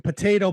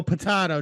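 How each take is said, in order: First: Said in the usual way. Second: Potato said po-TAH-to with a broad AH; potahto pronunciation. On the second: Shown as a demonstration. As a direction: say potato as po-TAH-to, flat AH vowel. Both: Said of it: "ever met anybody that says potato".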